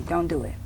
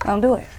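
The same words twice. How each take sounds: First: Hushed, softer plea. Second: Said in the usual way. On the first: Real, not acted. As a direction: quietly beg them not to. Pleading with the viewer.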